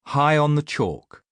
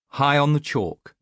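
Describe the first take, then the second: No difference in how they are said.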